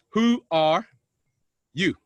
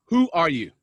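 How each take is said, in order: First: "who are" raised, long pause, then "you" alone; deliberate pauses. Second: Said in the usual way. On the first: Real, not acted. Speaker asks Yona to contemplate, "who are ... you" with deliberate pauses. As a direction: hold back the "you" after "who are". Repeats question word by word.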